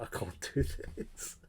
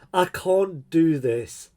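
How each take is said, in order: First: Whispered under the breath. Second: Louder, slow and drawn out; exasperated outburst. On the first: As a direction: mutter it almost silently, overwhelmed. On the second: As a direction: let the frustration out slowly and loudly. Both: Real, not acted.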